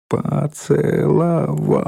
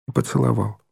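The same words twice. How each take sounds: First: Поцеловал drawn out slowly, one syllable at a time; higher, very slow по-це-ло-вал. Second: Said in the usual way. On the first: A narrator's reading. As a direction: spell out поцеловал in long separate syllables. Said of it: "произнесла Ленка по складам".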